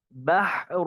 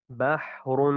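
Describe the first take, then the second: First: بحر higher, haa choked in the throat; strangled haa. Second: بحر with the haa breathed out freely; open haa. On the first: Teacher shows the mistake: a choked haa. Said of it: "اس طرح گلا گھوٹ کر پڑھنا یہ ٹھیک نہیں". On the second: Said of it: "اسی طرح یہ ہا کی بھی ادائیگی". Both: Shown as a demonstration.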